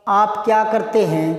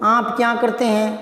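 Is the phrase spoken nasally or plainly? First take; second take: plainly; nasally. First: It is spoken in a plain, non-nasal voice. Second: It is spoken through the nose, sounding sharp. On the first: "एक बार देखो आप आप क्या करते हैं" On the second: "इसको नाक से बोलो"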